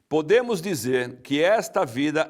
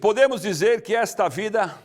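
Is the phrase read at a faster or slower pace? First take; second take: slower; faster. First: It is read at a slower, deliberate pace. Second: It is read at a normal, quicker pace.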